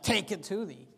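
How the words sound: It is said with a rude, dismissive attitude.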